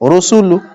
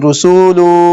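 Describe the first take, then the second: First: All three vowels are short and equal. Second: The middle vowel is drawn out long. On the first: The speaker calls it right. "तीनों को बराबर बराबर पढ़ेंगे" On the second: The speaker calls it wrong. "ये रुसूलु ये गलत है"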